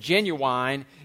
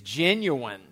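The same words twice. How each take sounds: First: The final syllable carries a secondary stress. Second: The final syllable is unstressed. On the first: This is used for emphasis or humorous effect. "with a secondary stress on the final syllable" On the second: This is the usual educated pronunciation. "with the final syllable unstressed"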